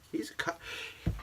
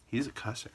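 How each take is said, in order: First: Hushed, scandalized half word; a hushed gossipy whisper; mock whisper. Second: Said in the usual way. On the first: Shown as a demonstration. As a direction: whisper it as if it's shocking. Restarts in a scandalized hush.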